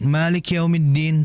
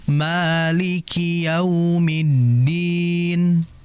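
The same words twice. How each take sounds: First: The phrase is recited quickly, syllables run together. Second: The phrase is recited slowly, each syllable distinct. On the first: The speaker calls it wrong. "terlalu cepat" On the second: The speaker calls it right. "likinya harus dijelaskan"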